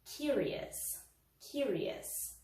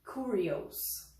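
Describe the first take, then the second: First: Curious ending in a weak -us, kuri-us; curious said kyur-ee-us, reduced ending; correct curious. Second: Curious ending in -ios, kurios; curious said kuri-os, O sounded; wrong curious. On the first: Teacher models the right ending for students: -us. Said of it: "a gente fala". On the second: Teacher shows students the wrong ending: kuri-os. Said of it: "A gente não vai falar". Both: Shown as a demonstration.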